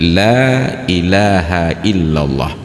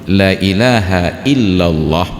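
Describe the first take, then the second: First: The vowel in 'la' is held long. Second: The vowel in 'la' is cut short. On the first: It denies that any god exists besides Allah. The speaker calls it right. "Lam kalau dibaca panjang itu menjadi la nafi" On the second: It asserts that a god truly exists besides Allah. The speaker calls it wrong. "ketika dibaca pendek itu menjadi taukid"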